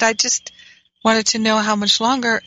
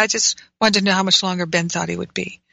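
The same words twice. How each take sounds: First: A mild, sweetly innocent request; gentle asking. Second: Said in the usual way. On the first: Shown as a demonstration. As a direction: ask it as gently as you can. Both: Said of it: "And I said it just like that".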